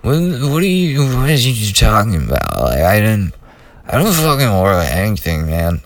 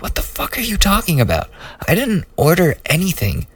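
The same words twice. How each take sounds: First: Slurred, tongue-tied wasted arguing; sloppy stoned mumbling that sinks by the end; drunken slur. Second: High-pitched, fast indignant retort; retold outburst, much higher and quicker; angry retort. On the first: Retold or imitated. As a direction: mumble it like you're half out of it. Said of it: "I'm sure it sounded like". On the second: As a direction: squeak out the outrage in a rush. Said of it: "I'm sure it didn't sound like that".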